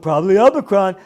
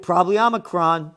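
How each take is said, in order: First: Loud, quicker mock-kid delivery; mocking six-year-old. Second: Said in the usual way. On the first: Host ridicules a quoted post as six-year-old talk, mock childish. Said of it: "six years old talking like this".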